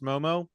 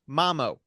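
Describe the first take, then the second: First: The first vowel sounds like 'oh'. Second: The first vowel sounds like 'ah', carefully enunciated. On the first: The speaker calls it wrong. "I thought it was going to be pronounced Momo" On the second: The speaker calls it right. "Nope, Mamo, specifically, very carefully enunciated"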